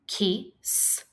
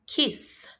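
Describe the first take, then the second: First: "Kiss" split into "ki", then a separate "sss"; sounded out. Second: Said in the usual way. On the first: Shown as a demonstration. Teacher asking pupils to listen, Kiss split as ki, s. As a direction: pause before the final S of "Kiss".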